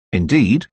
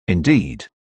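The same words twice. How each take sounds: First: Indeed? rising, a surprised query; puzzled rising Indeed; questioning Indeed. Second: Indeed. low and falling, settled; calm, conclusive Indeed; flat confirming Indeed. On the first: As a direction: ask "Indeed?" with the pitch lifting at the end. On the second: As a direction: answer "Indeed." with a low, final drop. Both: A narrator's reading. Surprised question, then flat confirmation.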